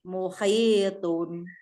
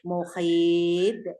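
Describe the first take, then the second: First: The word ends with a vowel and final n. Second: The word ends on a stopped consonant. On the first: The reading continues without stopping. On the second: The reading stops at this word.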